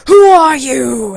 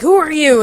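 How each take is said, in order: First: Very loud, slow, drawn-out demand; booming troll challenge. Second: High, loud quick challenge; challenging troll. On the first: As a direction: imitate a troll challenging a traveler grandly. Troll challenges Alice at bridge. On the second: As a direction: imitate a troll demanding a name. Troll challenges Deadpool at bridge. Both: Retold or imitated.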